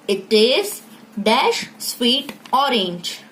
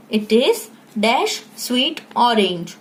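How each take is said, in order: First: Slow dictation, with a slight lean on "dash". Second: Said in the usual way. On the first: Shown as a demonstration. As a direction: read it out slowly so students can write. (धीमी गति से बोलकर लिखवाना)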